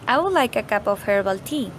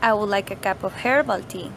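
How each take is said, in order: First: No single word gets special stress. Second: The word herbal is strongly stressed. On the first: It is just a simple request. "The first one is just a simple request" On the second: The speaker wants herbal tea, not another sort. "we are emphasizing that we want herbal tea"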